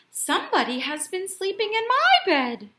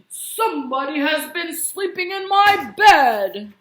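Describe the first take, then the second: First: It is said in a quiet, gentle voice. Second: It is said in a deep, growly voice.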